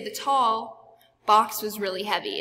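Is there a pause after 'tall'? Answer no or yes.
yes. There is a pause between tall and box. The speaker calls it wrong. "You wouldn't say"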